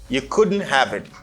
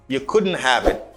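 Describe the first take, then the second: First: Couldn't have is said fully with a clear have. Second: Couldn't have is said fully with a clear have.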